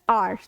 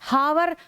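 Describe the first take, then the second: First: The word begins with a vowel, h silent. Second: The word begins with an audible h sound. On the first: The speaker calls it right. "It's आवर" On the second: The speaker calls it wrong. "हावर नहीं होता है"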